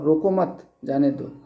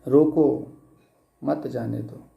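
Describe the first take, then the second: First: The pause comes right after 'mat'. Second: The pause comes right after 'roko'.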